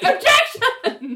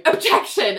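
First: Very high, drawn-out mock tantrum; hammed-up exasperated screech, half laughing; foot-stamping protest. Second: Mock courtroom protest, slightly raised pitch; lightly acted lawyer's interruption; acted objection. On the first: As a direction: squeal it slowly like a petulant lawyer. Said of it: "Richard is stamping his foot like". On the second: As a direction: call out a quick, higher objection.

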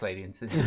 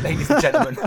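First: Said in the usual way. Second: High, loud, laughing through the words. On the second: Real, not acted. Host cracks up sending off the top tip, laughing loudly. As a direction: burst out laughing as you announce it.

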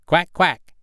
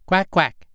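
First: Higher, louder quacking call; the mother duck calling her ducklings into the water. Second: A lightly raised quack; the mother duck calling her ducklings to follow; gentle quack. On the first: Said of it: "cried she". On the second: Mother duck calls her brood. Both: Acted.

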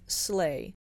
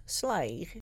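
First: Said in the usual way. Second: "sleigh" said "sly", with an "ai" vowel; "sleigh" rhyming with "fly"; old pronunciation. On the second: Shown as a demonstration.

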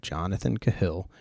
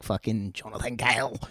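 First: Said in the usual way. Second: Jokey mock Cockney accent on "Fucking Jonathan Cahill". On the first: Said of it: "if that's how you pronounce it". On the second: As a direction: toss the name off like an exaggerated Cockney bloke. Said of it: "put some stinky Cockney on the end of that".

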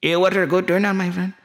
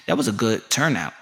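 First: High-pitched mock Middle Eastern accent; Saudi friend. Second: Said in the usual way. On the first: Saudi host agrees about the turnout, high accented caricature. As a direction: echo it as an eager Saudi host. Saudi character echoes own remark.

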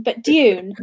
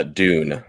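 First: "Dune" said as "jun", with a y-glide before the vowel; "Dune" rhymes with "June"; British pronunciation. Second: "Dune" said as "doon", with no y-glide; "Dune" with a plain American "oo"; flat American pronunciation. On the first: Host pronounces the game name with a "jun" sound. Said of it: "I'm convinced I'm saying it wrong". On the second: Guest gives the American way to say "Dune". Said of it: "in my flat American accent". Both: Shown as a demonstration.

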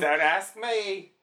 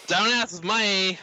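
First: Put-on Australian accent. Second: Slow mock Aussie "Don't ask me", pitched higher; Australian accent. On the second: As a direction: echo the line back in a hammed-up Australian drawl. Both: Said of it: "That's my Australian".

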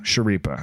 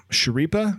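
First: Schirripa with a low, falling finish; decided, downturned Schirripa; settled try. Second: Schirripa with a high, questioning rise; tentative, upturned Schirripa; questioning try. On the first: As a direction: land Schirripa as a statement. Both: Real, not acted. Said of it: "Is that how you say his name?".

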